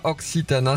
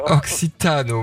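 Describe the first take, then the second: First: The final vowel sounds like a clear 'a'. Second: The final vowel sounds like an 'o'. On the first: The speaker calls it wrong. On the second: The speaker calls it right.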